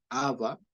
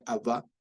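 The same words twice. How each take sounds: First: "Abba" said ÁB-ba, first syllable stressed. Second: "Abba" said ab-BÁ, final syllable stressed; stress on second A. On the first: Teacher shows the wrong accent, "Abba" stressed as ÁB-ba. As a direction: hit the first A of "Abba", let the last fall away. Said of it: "con el acento en la primera A". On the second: Teacher shows the correct accent, "Abba" stressed as ab-BÁ. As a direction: land on the last A of "Abba". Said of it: "sino en la segunda". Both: Shown as a demonstration.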